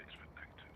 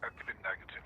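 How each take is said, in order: First: Whispered repeat, barely voiced. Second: Said in the usual way. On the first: Real, not acted. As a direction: drop to a whisper. Repeats test result, then whispers.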